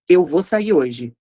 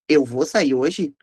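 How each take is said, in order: First: The pitch falls at the end. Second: The pitch rises at the end. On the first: "uma prosódia decrescente" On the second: "uma prosódia ascendente"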